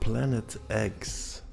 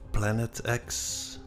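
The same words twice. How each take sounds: First: The X is said as "eggs". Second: The X is said as "ex".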